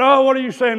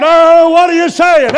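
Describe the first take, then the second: First: Said in the usual way. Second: Imitated question. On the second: Voicing the congregation's question.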